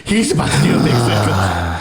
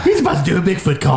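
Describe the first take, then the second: First: Said in the usual way. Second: Higher, louder and laughing; excited. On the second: Shown as a demonstration. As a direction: repeat it with rising glee.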